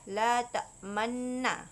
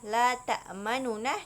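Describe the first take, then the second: First: The two n sounds merge into one long n. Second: The two n sounds are separated by a vowel. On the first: This is how the verse is actually recited. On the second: This is the underlying original form.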